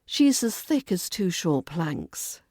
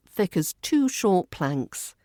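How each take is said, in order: First: Sarcastic thud on "planks"; dropped tone on planks. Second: Said in the usual way. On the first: Shown as a demonstration. Teacher demonstrating a sarcastic insult, tone dropped on "planks". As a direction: let the pitch fall hard on "planks". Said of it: "Drop your tone dramatically on planks".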